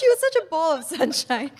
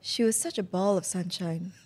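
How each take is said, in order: First: It is said casually, without much sincerity. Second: It is said with heartfelt, mournful sincerity.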